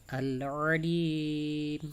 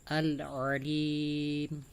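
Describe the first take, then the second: Both takes have the same delivery.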